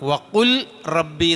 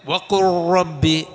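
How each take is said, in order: First: The first word ends with a clear L sound. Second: The L merges into the following R sound. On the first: The speaker calls it wrong. "വഖുൽ റബ്ബി എന്നാ" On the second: The speaker calls it right. "അപ്പോൾ ഓതേണ്ടത് എങ്ങനെ?"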